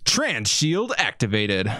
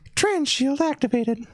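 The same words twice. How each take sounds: First: It is said in a natural voice. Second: It is said in a high falsetto voice.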